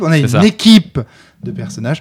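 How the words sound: The word équipe carries the emphasis. The group as a whole matters most.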